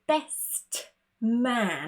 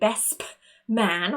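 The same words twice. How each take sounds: First: The word 'best' ends with a clear T sound. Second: The word 'best' ends with a fully spoken P. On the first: "It's way too complicated" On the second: "we don't necessarily say best man. We don't want to over-exaggerate"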